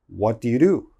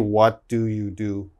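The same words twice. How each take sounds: First: It is said very fast. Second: It is said slowly and carefully.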